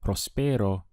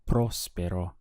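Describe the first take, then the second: First: The stress falls on a later syllable. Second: The stress falls on the first syllable. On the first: The speaker calls it wrong. "you may not be understood" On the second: The speaker calls it right. "your pronunciation stresses that part of the word"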